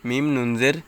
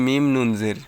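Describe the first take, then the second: Both takes have the same delivery.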